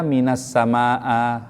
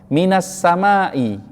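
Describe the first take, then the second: First: The last word ends with an a vowel. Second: The last word ends with an i vowel. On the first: The speaker calls it wrong. "gak boleh dibaca" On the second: The speaker calls it right. "isimnya saat itu wajib dibaca dengan kasrah"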